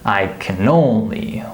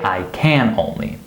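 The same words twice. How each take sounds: First: The word can is short, unstressed and reduced. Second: The word can is full and clearly stressed. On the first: The speaker calls it right. "Notice that it's not stressed" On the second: The speaker calls it wrong. "We don't say I can only"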